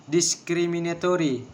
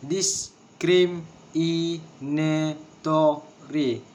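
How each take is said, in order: First: Said in the usual way. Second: "Discriminatory" very slowly in separate syllables. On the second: Shown as a demonstration. Teacher showing a word of six syllables, syllable by syllable. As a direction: break it up, each syllable on its own. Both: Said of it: "six syllables".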